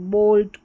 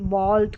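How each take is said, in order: First: The vowel is a rounded 'oh' sound. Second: The vowel is an open 'aw' sound. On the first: The speaker calls it right. "ओ लिखा है तो ओ ही करना है" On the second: The speaker calls it wrong. "ये बॉल्ट करके पढ़ा जाता है, जो गलत होता"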